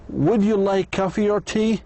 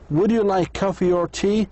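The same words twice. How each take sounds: Both takes have the same delivery.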